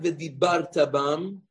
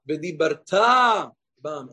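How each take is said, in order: First: The stress falls on the middle syllable. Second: The stress falls on the final syllable. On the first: Something was done in the past. The speaker calls it wrong. "Not ve'dibarta bam" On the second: It is a command for the future. The speaker calls it right. "Ela v'dibarta bam, and you shall speak of them"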